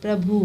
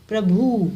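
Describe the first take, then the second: First: प्रभु in a short, light reading; misspelt pronunciation. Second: प्रभु louder with a drawn-out भु; corrected pronunciation. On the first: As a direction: say प्रभु briefly, without weight on भु. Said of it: "इनका अशुद्ध रूप क्या है". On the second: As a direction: lean on the second syllable of प्रभु. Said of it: "फिर शुद्ध रूप क्या है". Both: Shown as a demonstration.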